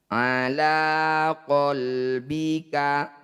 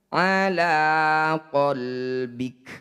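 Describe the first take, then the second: First: The last word ends with a short vowel. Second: The last word ends with a bare consonant. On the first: The reading continues without stopping. "Awalnya qalbika" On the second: The reading stops on this word. "ketika dihentikan ala qalbik"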